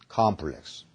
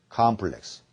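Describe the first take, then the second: The two takes are said the same way.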